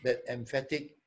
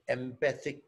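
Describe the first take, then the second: First: "emphatic" said with the stressed syllable "PHAT", as in forceful; the slip "emphatic", stress on the second syllable, em-PHAT-ic; slip of the tongue. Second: "empathic" said with the stressed syllable "PATH", em-PATH-ic; the right word "empathic", em-PATH-ic, stress on PATH; corrected word. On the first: Correcting his slip to the staff, the wrong word "emphatic" said first. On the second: After correcting himself to the staff, saying "empathic" properly. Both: Real, not acted.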